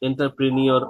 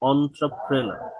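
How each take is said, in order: First: It begins with en and ends in -nyor. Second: It begins with on and ends in -ner. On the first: The speaker calls it wrong. "এটা এন্টারপ্রেনিয়র অনেক কিছু বলে" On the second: The speaker calls it right. "এটার উচ্চারণ আসলে হচ্ছে অন্ত্রপ্রেনার"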